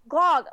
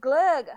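First: The vowel sounds like the one in 'log'. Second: The vowel sounds like the one in 'lug'. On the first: This is how the show said it. The speaker calls it wrong. "what did they really call it?" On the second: This is the proper pronunciation. The speaker calls it right. "No, it's glug"

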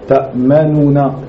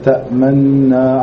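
First: The two n sounds are separated by a u vowel. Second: The two n sounds merge with no vowel between. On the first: This is the form used in certain other readings. "dans certaines versions" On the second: This is the form used in the usual readings. "sans entendre le son de Dhamma"

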